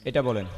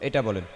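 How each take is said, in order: No difference in how they are said.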